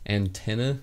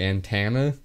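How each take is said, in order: First: The middle vowel is a clear E sound. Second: The middle vowel sounds like an A sound. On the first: The speaker calls it right. "I said it right that time" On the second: The speaker calls it wrong. "the E I do as an A"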